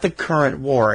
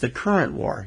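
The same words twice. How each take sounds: First: The stress falls on the word war. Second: The stress falls on the word current. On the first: It means the war happening now. The speaker calls it wrong. "not the current war" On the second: It is about electrical currents. The speaker calls it right. "the emphasis has to be the current"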